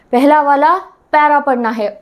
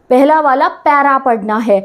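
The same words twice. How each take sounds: First: Said in the usual way. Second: Slow, deliberate stress on पहला वाला para; slow emphasis. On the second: Shown as a demonstration. Teacher drilling the students: slow, deliberate emphasis. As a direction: spell out पहला वाला para पढ़ना है slowly, word by word. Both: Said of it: "सबसे पहले para वाला पहरा".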